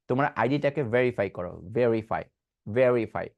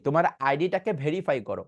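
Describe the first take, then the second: First: ভেরিফাই with a buzzing v and no air; voiced v verify. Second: ভেরিফাই said bherify with a puff of air; wrong breathy verify. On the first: Teacher modelling the correct voiced verify. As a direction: vibrate the throat on the v of ভেরিফাই. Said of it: "এখানে কোনো বাতাস আসবে না". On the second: Teacher showing the usual wrong bherify. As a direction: say ভেরিফাই with an airy bh. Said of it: "but আসলে এটা ভেরিফাই না". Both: Shown as a demonstration.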